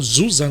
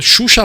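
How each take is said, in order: First: The name starts with a buzzing z-like sound. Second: The name starts with a Brazilian sh sound.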